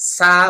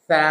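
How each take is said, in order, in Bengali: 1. জিভ দাঁতের পেছনে থাকে, s-এর মতো। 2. জিভ সামনের দাঁতে ছোঁয়, th-এর মতো। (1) "সা বলা যাবে না, মানে জিহ্বাটা ভিতরে রাখা যাবে না" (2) "বলতে হবে সা, জিহ্বাটা সামনের দাঁতের আগায় লেগে যাবে"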